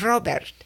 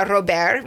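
First: ROBERT with a barely touched T at the end; super-soft final T. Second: ROBERT as "ro-BEAR", silent T; first-guess pronunciation. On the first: Retold or imitated. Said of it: "like, super soft at the end". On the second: Shown as a demonstration. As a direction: say "Robert" with no T at the end. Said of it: "which is what I went first".

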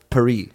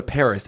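First: "Paris" as pa-REE, silent s; French pronunciation. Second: Said in the usual way. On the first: Acted. Co-host playing Parisians correcting him, "Paris" as pa-REE. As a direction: say "Paris" the French way, stressed at the end. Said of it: "it's pronounced Paris". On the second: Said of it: "if we were saying".

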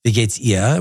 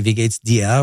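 First: "ihr" said with no consonant at the start; German "Wie geht's ihr?" running straight into the vowel of "ihr"; German regional variant. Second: "dir" said with its initial d sounded; German "Wie geht's dir?" with a clear d on "dir"; German regional variant. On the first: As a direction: say "ihr" as "ee-uh", without any d. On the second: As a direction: say "dir" as "dee-uh", starting on the d. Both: Shown as a demonstration. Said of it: "a different way of saying it".

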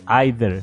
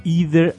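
First: "either" said as "eye-der"; "either" opening with "ai". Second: "Either" said as "ee-der"; "Either" opening on a long ee. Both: Shown as a demonstration.

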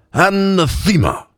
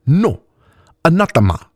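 First: "Anathema" drawn out slowly and high with a tipsy slur; drunken elvish sounding-out. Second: Put-on accent with deep vowels and sharp consonants; higher voice, accent of deep vowels, sharp consonants; Mauxi woman's accent. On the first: Drunk elf cleric trying a new word at the bar, slow high slurred "Anathema". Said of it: "sounded out slowly, in an elvish accent topped with intoxication". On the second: Mauxi woman correcting the drunk elf, accent of deep vowels and sharp consonants. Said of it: "her accent marked by deep vowels and sharp consonants".

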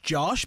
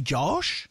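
First: Said in the usual way. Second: "Josh" with a drawn-out, stylized vowel; "Josh" said the stylized way, vowel held long; stylized pronunciation. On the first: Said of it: "stylized it to be Josh". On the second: Shown as a demonstration. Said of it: "you've just, like, stylized it".

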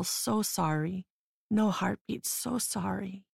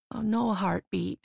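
First: Slow, softer, sing-song doctor's murmur; doctor consoling the dying mother, soft lilting and slow. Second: Lightly voiced gentle doctor, a touch sing-song; hint of a musical lilt on "no heartbeat"; doctor softly breaking bad news, faint lilt. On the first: Acted. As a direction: let "so sorry" float gently, almost musical. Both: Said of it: "in a soft and lilting tone, almost musical".

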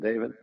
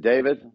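First: Softer, lightly imitated Southern accent. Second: Said in the usual way. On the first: Retelling the late mentor's words to the audience, Southern accent. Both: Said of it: "in a Southern accent".

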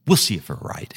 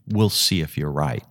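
First: Skeptical relenting. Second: Said in the usual way. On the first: Retold or imitated. Player giving in to his caddy's club choice, skeptical relenting. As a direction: concede with a doubtful edge, as retold. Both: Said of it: "But he said it, he was like".

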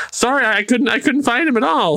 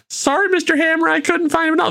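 First: Higher, eager apologetic voice; Jimmy Olsen type. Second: High, apologetic whine; nervous underling. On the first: Underling apologizing again, a bit higher and sheepish. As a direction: apologize like a gee-whiz sidekick. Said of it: "The Jimmy Olsen of the MCU". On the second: Underling apologizing to Mister Hammer, high and sheepish. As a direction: cringe as you report failure. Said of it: "so he goes". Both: Retold or imitated.

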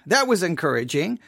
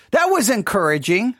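First: Muttered dry echo; deadpan sarcasm. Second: Dry mock praise with a rising lilt; ironic, lightly lifted "encouraging"; sarcastic. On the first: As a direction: let the irony sink, deflated. Sarcasm repeated, deflated. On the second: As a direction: pretend to be pleased. Sarcasm about insulting message. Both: Real, not acted.

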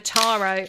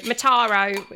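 First: Said in the usual way. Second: Mataro in a half-hearted, slightly louder Australian accent; an awful attempt at an Australian accent on Mataro; failed Australian accent. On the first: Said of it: "I should say Mataro". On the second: Shown as a demonstration. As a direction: try Mataro the Australian way and miss. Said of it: "me trying to put on an Australian accent".

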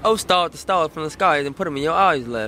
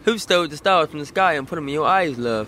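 First: Rough try at a British accent; British accent attempt. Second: Improved go at a British accent; British accent attempt. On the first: Mimicking the British host's line, attempted British accent. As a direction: copy the British line in an American's shaky British accent. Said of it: "her accent is on a different level to yours". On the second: Second try for the host, British accent. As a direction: have a better stab at sounding British. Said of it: "That was a lot better". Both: Shown as a demonstration.

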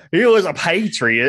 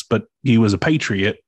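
First: Slow, drawn-out patriot in a Louisiana drawl; mock Southern accent. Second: A touch of Louisiana accent on patriot; Southern accent. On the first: Cohost mimics his friend's Louisiana accent. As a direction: lean into the Louisiana drawl, mocking. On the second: Real, not acted. Host hears his Louisiana accent. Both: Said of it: "I love the fucking accent you just threw".

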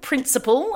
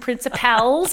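First: "principle" with the final syllable spelt out as P-L-E; principle with PLE. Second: "principals" jokingly pronounced "princi-PALS". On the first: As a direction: say "principle" carefully, ending in a "pull" sound. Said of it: "that's principle with P L E". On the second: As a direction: say "principals" with the ending sounded as "pals". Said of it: "not P A L". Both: Shown as a demonstration.

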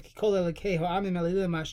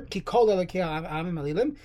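First: Said in the usual way. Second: Ki set apart, short break before kol; a small break after Ki, then kol; short pause after ki. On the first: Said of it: "you want to break between". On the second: Shown as a demonstration. Teacher showing the correct reading, pause between Ki and kol. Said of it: "you should have a break".

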